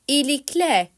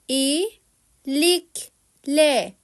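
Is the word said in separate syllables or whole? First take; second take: whole; syllables. First: It is said smoothly as one word. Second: It is broken into separate syllables. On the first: "sonra hecelemeden" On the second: "Önce heceleyerek"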